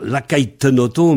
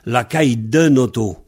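First: The linking consonant sounds like a t. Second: The linking consonant sounds like a d. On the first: The speaker calls it wrong. "ne pas dire" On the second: The speaker calls it right.

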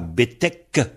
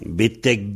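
First: The word ends with a K sound. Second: The word ends with a G sound. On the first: "Devant un P, on aura un K" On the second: "là on entend un G"

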